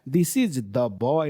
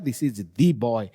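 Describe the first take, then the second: First: 'The' is said with a short uh vowel. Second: 'The' is said with a long ee vowel. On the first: The speaker calls it wrong. "This is द boy नहीं होगा" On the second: The speaker calls it right. "ये boy का ऊपर हम एम्फासिस करते हैं"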